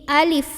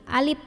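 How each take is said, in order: First: The word ends with a breathy f sound. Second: The word ends with a p sound. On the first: The speaker calls it right. "bukan alip tapi pakai F ... ada anginnya ya" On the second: The speaker calls it wrong. "sering dibaca tertukar dengan huruf P"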